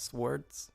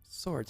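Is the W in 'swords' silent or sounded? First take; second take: sounded; silent. First: The W is clearly sounded in the word. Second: The W is silent in the word. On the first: The speaker calls it wrong. "Why am I pronouncing the W?" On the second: The speaker calls it right. "Swords, not swords"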